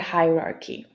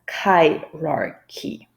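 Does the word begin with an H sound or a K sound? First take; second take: H sound; K sound. First: The word begins with an H sound. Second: The word begins with a K sound. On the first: The speaker calls it right. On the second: The speaker calls it wrong.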